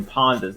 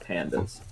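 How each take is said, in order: First: "Pondas" with ah in the first syllable; corrected pronunciation. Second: "pandas" with the short a of "cat"; lower, softer "pandas", the ordinary animal word; usual pronunciation. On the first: Caster confirms the odd name to co-caster, "Pondas" with ah. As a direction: say "Pondas" to rhyme with Hondas. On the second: Caster rules out the usual word, "pandas" with short a. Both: Shown as a demonstration. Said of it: "not pandas".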